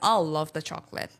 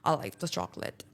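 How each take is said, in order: First: It is said cheerfully and with feeling. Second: It is said sourly and miserably.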